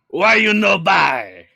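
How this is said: It is said in a Watto impression voice.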